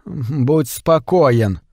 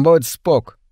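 First: Будь спокоен, full form, slow and careful; correcting. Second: Будь спок, clipped slang ending; slangy short form. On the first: Trimble correcting Clarence's slang, slow full form. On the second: Clarence using slang to Trimble, будь спок said casually. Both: A narrator's reading. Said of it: "поправил Тримбл".

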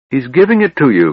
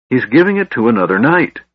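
First: GIVING hit high and loud in "He's giving it to you", falling off after; cried out. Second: GIVING stressed, the line climbing at the end of "He's giving it to another knight"; rising insistence. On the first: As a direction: push hard on the word giving. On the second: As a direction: lean on giving, lift to the end. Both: A narrator's reading. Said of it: "cried Laurana".

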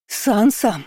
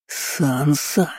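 First: High cry, falling away; calling after her. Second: Drawn-out hissed warning; hissing. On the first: Pursuers calling after the runaway, high-pitched shout. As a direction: call the name from a distance, pitched up. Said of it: "кричали мне вслед". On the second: Uncle out of patience with his niece, hissing. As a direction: hiss the name, lifting the end. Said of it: "зашипел жидкобородый". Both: A narrator's reading.

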